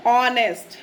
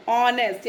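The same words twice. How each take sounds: First: ऑनेस्ट said clearly with no h, starting on the O; firm model word ऑनेस्ट, O sound first, h dropped; silent h. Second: Said in the usual way. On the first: Shown as a demonstration. (ऑनेस्ट को बिना एच के, ओ से शुरू करके बोलिए) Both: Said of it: "तो हम कैसे बोलेंगे?".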